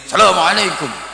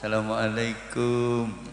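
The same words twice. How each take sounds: First: The greeting is loud and high in pitch. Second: The greeting is quiet and low in pitch. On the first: The speaker greets a respected teacher openly and boldly. "salamnya ya tetap pakai nada tinggi keras" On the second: The speaker bows humbly before a respected teacher. "Kalau santri ketemu kiainya, bungkuk-bungkuk"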